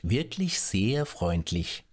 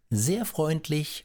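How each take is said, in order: First: Slow, lowered, smug thanks; smug politeness. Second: High, slow, sugary thanks; "sehr freundlich" lifted high and drawn out; sly politeness. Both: A narrator's reading. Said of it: "Er verneigte sich höflich und sagte".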